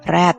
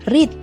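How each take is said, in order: First: It is said as the past-tense form. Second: It is said as the present-tense form. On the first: The verb is used in its past or participle form. "jika digunakan sebagai verb dua atau verb tiga, maka pengucapannya akan berubah menjadi" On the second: The verb is used in its base form. "jika digunakan sebagai verb satu, maka pronunciation-nya adalah"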